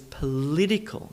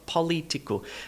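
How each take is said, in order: First: The stress is on the second syllable. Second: The stress is on the first syllable. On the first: The speaker calls it right. "always heard that word as political" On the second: The speaker calls it wrong. "not political, because poly is a different word"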